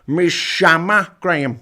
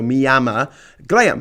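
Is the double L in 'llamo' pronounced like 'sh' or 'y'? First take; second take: sh; y. First: The double L sounds like 'sh'. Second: The double L sounds like a 'y'. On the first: "they actually pronounce it as an S H" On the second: "this double L, which is pronounced as like a Y"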